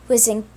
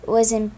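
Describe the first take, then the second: No difference in how they are said.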